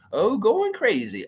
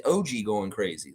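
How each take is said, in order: First: "oh" said as a drawn-out exclamation, "oh, going crazy"; misread chat typo. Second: "O G" spelled out as two letters, O then G; corrected reading. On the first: Reading a viewer's typo aloud to Fiercey, mock misreading. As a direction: read "oh" as the word oh, slow and stretched. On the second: Correcting the chat message for the viewer, plain corrected reading. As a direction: say the letters "O G" clearly as a name. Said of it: "That's what you mean". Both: Shown as a demonstration.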